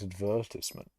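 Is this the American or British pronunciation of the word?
British. It is said with the British pronunciation. This is the form the speaker was told to use. The speaker calls it wrong. "we're supposed to pronounce it advertisement"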